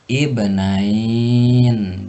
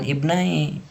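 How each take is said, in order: First: The word ends with a final n sound. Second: The word ends without a final n sound. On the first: The speaker calls it right. "tapi ibnain ... dengan ditambah nun pada ujung lapad" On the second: The speaker calls it wrong. "maka dibacanya jangan ibnai"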